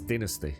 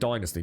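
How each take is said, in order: First: It is said with a British pronunciation. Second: It is said with an American pronunciation. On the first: The speaker calls it right. "in proper English" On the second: The speaker calls it wrong.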